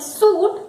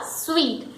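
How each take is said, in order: First: "suit" pronounced soot, long oo; wrong suite. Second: "suite" pronounced sweet; correct suite. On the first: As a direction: say "suit" with no W sound. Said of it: "Many people call it suit". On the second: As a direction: say "suite" with W and long ee. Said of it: "but it is a suite". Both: Shown as a demonstration.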